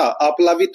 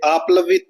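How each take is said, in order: First: आप्लावित said with a long "aa" after pl, aaplaavit; correct form. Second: आप्लवित said with a short first "a" after pl, aaplavit; wrong spelling read out. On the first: Teacher gives students the correct word, clearly. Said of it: "आप्लावित होता है". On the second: Teacher reads the wrong option aloud to the class, plain. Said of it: "ये आप्लवित नहीं होता". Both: Shown as a demonstration.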